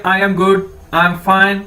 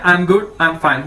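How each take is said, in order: First: Said in the usual way. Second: "I am good, I am fine" spelled out very slowly, lower; slow, lowered teacher model of "I am good, I am fine"; slow teaching demo. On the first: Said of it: "या जिस तरह हम English में कहते हैं". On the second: Shown as a demonstration. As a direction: drag each word out for students. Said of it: "ठीक है".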